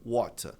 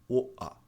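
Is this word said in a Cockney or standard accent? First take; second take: standard; Cockney. First: The t is clearly pronounced as a t. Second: The t is dropped, leaving only vowels. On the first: "Pronúncia padrão é water. Esse T R tem som de T" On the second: "sotaque Cockney... A pronúncia de water vira oa"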